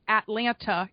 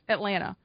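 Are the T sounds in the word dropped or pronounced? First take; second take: pronounced; dropped. First: The T sounds are clearly pronounced. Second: The T sounds are dropped. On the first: The speaker calls it wrong. "It is not Atlanta" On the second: The speaker calls it right. "there's no T's"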